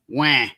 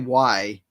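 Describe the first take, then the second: First: The vowel stays a flat, long 'ah'. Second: The vowel glides from 'ah' toward 'ee'. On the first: This is how many Southerners say it. "They go "wah,"" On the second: This is how people outside the rural South say it. "They don't say "why.""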